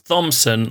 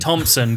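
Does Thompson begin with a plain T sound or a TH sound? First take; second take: TH; T. First: The name begins with a TH sound. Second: The name begins with a plain T sound. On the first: The speaker calls it wrong. "If he was Thompson, I'd say ugly" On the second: The speaker calls it right. "But Thompson, good"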